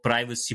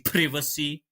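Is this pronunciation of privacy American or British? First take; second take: American; British. First: It is said with an American pronunciation. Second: It is said with a British pronunciation. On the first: "Why has he never called privacy" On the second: "British style pronunciations"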